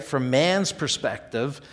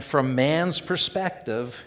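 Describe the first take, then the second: First: Slow, "mans" stressed with a rising close; "mans" pushed up, the phrase left hanging; rising on man's. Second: Slow, man's stressed with a falling close; "mans" weighted, the phrase settling downward. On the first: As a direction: lift "mans" like a question. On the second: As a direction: lean on "mans" and let it fall. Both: Shown as a demonstration.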